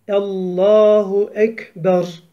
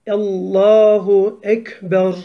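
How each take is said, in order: Both takes have the same delivery.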